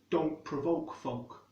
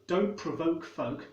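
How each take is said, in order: First: The o vowel is made far back in the mouth. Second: The o vowel is the standard English vowel. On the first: "that's made much further back in the mouth" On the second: "instead of O, like in standard English"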